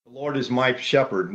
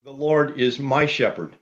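First: "my" leaned on, personal and held; "my" given the weight, "Lord" left light; stress on my. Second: "Lord" carried by pitch and weight, rest falling away; stress on Lord. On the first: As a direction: press the word "my" as a personal claim. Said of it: "symbolizing his personal relationship". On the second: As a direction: lean into the word "Lord" as the emphatic first word. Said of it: "occupies the first and emphatic place". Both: Shown as a demonstration.

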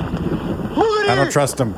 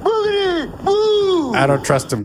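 First: Very high, slow quavering warning; melodramatic high voice. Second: Very high, slow fake sob; mock crying. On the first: Acted. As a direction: wail it like a soap heroine. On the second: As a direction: wail the line through mock tears. Repeated dramatic warning, crying.

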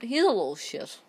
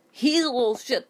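First: Said in the usual way. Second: He's raised high and loud; indignant louder repeat. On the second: Real, not acted.

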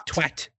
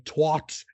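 First: "twat" with the short A of "cat"; British "twat". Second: "twat" as TWOT, open AH vowel, drawn out; American "twat". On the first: Retold or imitated. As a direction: rhyme "twat" with "at". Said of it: "you guys say". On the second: Shown as a demonstration. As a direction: rhyme "twat" with "hot". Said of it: "but we say twat".

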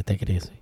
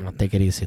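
First: Hushed and lower, whispered; calm him down in a whisper; soft whisper. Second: Said in the usual way. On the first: Real, not acted. Whispering to his angry cohost, soft and hushed.

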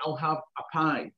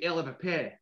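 First: Said in the usual way. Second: Dundee accent, "I'll have a pie" as "Ell have a peh"; "pie" said "peh" the Dundee way, softer. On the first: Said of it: "I might go into a shop and say". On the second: Shown as a demonstration. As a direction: Dundee Scots accent, clipped vowels. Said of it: "but they'll say".

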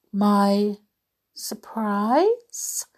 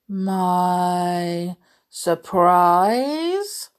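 First: Light questioning lift on the last word; surprised question. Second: Very slow storybook beast, rising at the end; Beast's surprise. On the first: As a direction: ask in mild, pleased wonder. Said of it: "asked Belle". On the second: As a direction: stretch both words into a doubtful question. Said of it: "asked the beast". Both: A narrator's reading.

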